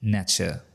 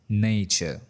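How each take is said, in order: First: The first syllable has a short 'na' vowel. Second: The first syllable has a long 'nay' vowel. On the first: The speaker calls it wrong. "which is a mispronunciation" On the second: The speaker calls it right. "The correct pronunciation is nature. ... in nature, the sound is nay"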